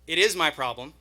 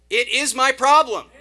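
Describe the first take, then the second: First: It is said at normal volume. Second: It is said loudly.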